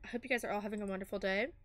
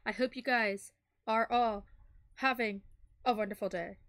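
First: The sentence is spoken very fast. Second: The sentence is spoken at a slower pace. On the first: The speaker calls it wrong. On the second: The speaker calls it right.

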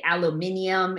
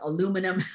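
First: The word is said with a British pronunciation. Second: The word is said with an American pronunciation. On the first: "We used to say aluminium" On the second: "instead of aluminum"

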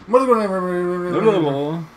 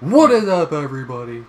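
First: It is said slowly and mumbled. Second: It is said fast and clearly.

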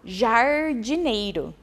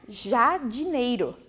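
First: The first syllable is said with an R sound. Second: The first syllable is said without an R sound. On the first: The speaker calls it right. "o R ajuda na vogal" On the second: The speaker calls it wrong. "senão ficaria jardineiro"

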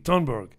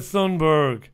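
First: The name begins with a hard T sound. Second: The name begins with a soft TH sound.

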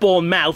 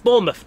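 First: The ending has the full 'mouth' vowel. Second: The ending is reduced to a short 'muth'. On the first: The speaker calls it wrong. "It's not Bournemouth" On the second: The speaker calls it right. "it's Bournemouth"

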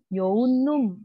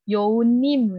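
First: The last syllable has a u vowel. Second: The last syllable has an i vowel. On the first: The speaker calls it right. "Mendingan yoonum. Nah, lebih tepat yang itu" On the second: The speaker calls it wrong. "itu kan agak dari U ke I"

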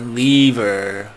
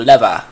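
First: The word ends with an R sound. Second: The word ends without an R sound. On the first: The speaker calls it right. "I've tried to pronounce it correctly before" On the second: The speaker calls it wrong. "We don't do R, we do lava"

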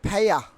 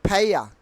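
Both takes have the same delivery.

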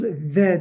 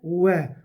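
First: It starts with a v, teeth touching the lip. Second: It starts with a w, lips rounded, not touching. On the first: The speaker calls it wrong. "Ve değil" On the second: The speaker calls it right. "Dudaklarımız birleşmeden ileriden geliyor"

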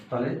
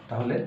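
The two takes are said the same way.

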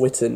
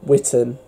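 First: The ending is reduced, sounding like 'Witten'. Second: The name is said as spelt, ending in 'ham'. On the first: This is how the name is actually said. "is how it's said" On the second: This follows the written form of the name. "is how it's spelt"

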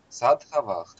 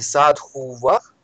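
First: The second vowel sounds like "a". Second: The second vowel sounds like "u". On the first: The speaker calls it right. "Садхавах, да" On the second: The speaker calls it wrong. "Вы говорите садхувах?"

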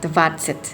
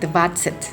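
First: The last syllable has an 'e' vowel. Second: The last syllable has an 'e' vowel.

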